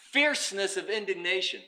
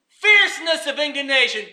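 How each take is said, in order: First: Said in the usual way. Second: FIERCENESS of indignation punched out higher; forceful repeat. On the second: Shown as a demonstration. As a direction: hit "Fierceness" hard, voice raised.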